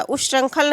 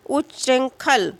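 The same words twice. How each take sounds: First: उच्चृंखल said ush-shrankhal; quick उच्चृंखल with sh in place of chchh; wrong cluster. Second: Slow उच्चृंखल, uch-chhrin-khal; correct cluster. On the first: Teacher showing the form to reject, उच्चृंखल with a sh sound. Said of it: "उच्चृंखल नहीं लिखा जाएगा". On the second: Teacher repeating an exam word, उच्चृंखल slowly with firm chchh. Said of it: "इस तरह से लिखा जाएगा". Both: Shown as a demonstration.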